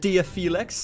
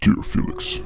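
First: It is said in the speaker's normal voice. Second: It is said imitating the guy's voice.

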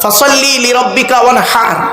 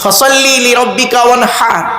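The two takes are said the same way.

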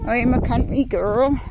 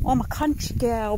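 First: It is spoken in a rural country accent. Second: It is spoken in a London accent. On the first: The speaker calls it right. "that was country, wasn't it?" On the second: The speaker calls it wrong. "That's a London accent"

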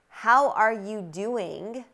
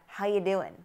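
First: The word 'are' is said in full. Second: The word 'are' is dropped and the words run together. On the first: "turns into" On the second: "How are you doing turns into how you doing"

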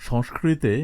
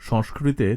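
Both takes have the same delivery.

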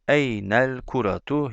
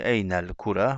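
First: The word ends with a full 'tu' syllable. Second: The word ends on 'ra' without the 'tu'.

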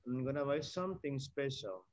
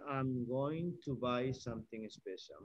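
First: 'Going to' is reduced to 'gonna'. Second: 'Going to' is said in full. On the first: It is casual conversational speech. "This is just for conversation" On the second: It is the full standard form. "Instead of saying"

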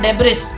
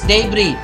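First: The final S sound is pronounced. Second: The final S sound is silent. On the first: The speaker calls it wrong. "it's not debris" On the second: The speaker calls it right. "silent S"

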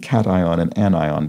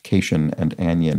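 First: The words are said in their unintuitive, established way. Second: The words are said as ordinary English patterns suggest. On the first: The speaker calls it right. "I especially remember the pronunciation cation and anion, because they're so incredibly unintuitive" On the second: The speaker calls it wrong. "You'd think those would be pronounced cation and anion"

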